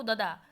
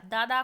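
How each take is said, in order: First: ददा with a short first vowel; dropped long vowel. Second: Said in the usual way. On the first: Shown as a demonstration. Teacher quoting a child, ददा with shortened vowel. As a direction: clip the first "aa", ददा as "da-daa". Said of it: "स्वर का लोप कर रहा है". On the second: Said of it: "स्वर का लोप".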